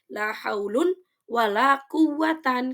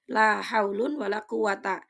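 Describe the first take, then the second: First: The last word ends in -an. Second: The last word ends in a short -a. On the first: No rule supports this reading. "tidak boleh dibaca nasab" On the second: The second la works like inna. "Yang pertama itu mabni patah"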